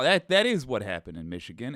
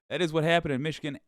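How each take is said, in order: First: The voice sounds old, thin and cracked. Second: The voice sounds normal, clear and steady. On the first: The speaker calls it wrong. "and that old man voice" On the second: The speaker calls it right. "There we go"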